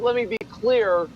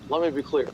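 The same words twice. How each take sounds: First: It is said in the speaker's ordinary voice. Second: It is said in an imitated politician's voice. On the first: The speaker calls it wrong. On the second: The speaker calls it right.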